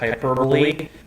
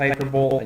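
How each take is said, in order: First: The final E is pronounced as a syllable. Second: The final E is silent. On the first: This is the intended name. The speaker calls it right. "this package is supposed to be called hyperbole" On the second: This is a personal reading of the name. The speaker calls it wrong. "I always read it as hyperbole"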